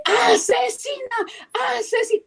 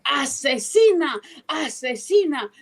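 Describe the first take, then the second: First: Retold shout. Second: Slow accusation. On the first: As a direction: yell Asesina at her. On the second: Retold or imitated. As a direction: say Asesina slowly and steadily. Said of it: "le digo".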